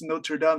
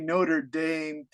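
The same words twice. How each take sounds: First: It is said with a French accent. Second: It is said with an American English accent. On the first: "in French, it's Notre Dame" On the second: "Americans say Notre Dame"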